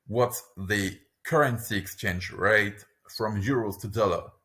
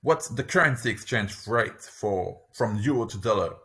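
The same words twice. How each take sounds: First: Slow, careful delivery; careful teaching pace; slower. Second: Said in the usual way. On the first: Shown as a demonstration. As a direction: model it slowly for the learner. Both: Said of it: "lesson repeats phrase twice".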